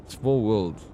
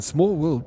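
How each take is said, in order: First: Said in the usual way. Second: Higher and louder, fall on "Small"; "Small world" thrown out high and loud; amazed exclaim. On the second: Real, not acted. Marvelling at a coincidence.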